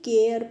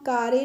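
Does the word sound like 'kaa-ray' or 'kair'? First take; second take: kair; kaa-ray. First: It is said as one syllable, kair. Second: It is said as two syllables, kaa-ray. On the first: The speaker calls it right. "केयर पढ़ेंगे" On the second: The speaker calls it wrong. "कारे नहीं"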